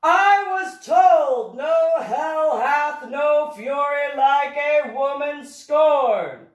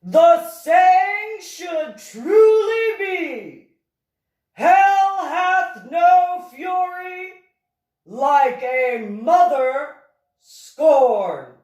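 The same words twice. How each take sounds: First: Loud, high, slow and drawn-out exasperation; frustrated outburst. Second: Very high, loud, long-held ominous wail; ominous proclamation. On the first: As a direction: declaim it in frustration, stretching every word. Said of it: "the professor stated in frustration". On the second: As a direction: proclaim it like a doom prophecy, stretching each word very slowly. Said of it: "prior to stating ominously". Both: A narrator's reading.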